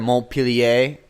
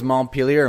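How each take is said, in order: First: It is said with a French accent. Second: It is said with an American accent.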